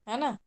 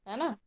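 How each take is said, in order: The two takes are said the same way.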